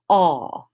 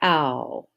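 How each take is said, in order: First: The vowel sounds like aw in odd. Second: The vowel sounds like ow in found. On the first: This is the English pronunciation. "We're going to say aw" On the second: This is the Latin pronunciation. "instead of ow"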